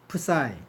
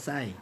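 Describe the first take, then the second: First: The word begins with a p sound. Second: The word begins without a p sound. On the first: The speaker calls it wrong. "내가 푸사이라 그랬는데" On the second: The speaker calls it right. "원래 발음은 싸이예요. 앞에 피 발음은 안 해요"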